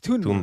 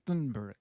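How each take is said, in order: First: The name begins with a plain t sound. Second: The name begins with a th sound. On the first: The speaker calls it right. "but it's" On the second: The speaker calls it wrong. "because there's T H, right?"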